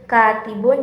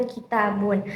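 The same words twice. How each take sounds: First: "katibun" as KAA-ti-bun; first syllable of "katibun" carries the beat; stress on first syllable. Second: "kitabun" as ki-TAA-bun; stress on second syllable. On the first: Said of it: "tekanannya terdapat pada huruf kafnya". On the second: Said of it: "tekanan pada huruf taknya". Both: Shown as a demonstration.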